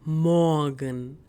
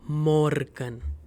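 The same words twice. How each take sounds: First: The R sound is left out. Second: The R sound is clearly pronounced. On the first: The speaker calls it right. "I'm not pronouncing this R" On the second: The speaker calls it wrong. "and not Morgen"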